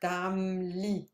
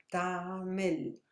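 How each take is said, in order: First: "Ptamli" with a tiny break after the m: ptam-li; teacher's demo of "Ptamli" as two syllables, ptam, li; very brief pause. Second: "Ptamil" with a tiny break before the m: pta-mil; teacher's demo of "Ptamil" as two syllables, pta, mil; very brief pause. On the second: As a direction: pause briefly inside "Ptamil", after the long a. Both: Shown as a demonstration. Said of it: "very brief pause".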